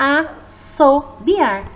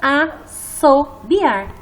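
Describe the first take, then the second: First: The middle consonant is a hissing S sound. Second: The same.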